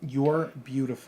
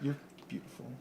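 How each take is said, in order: First: It is said louder. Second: It is said at normal, softer volume.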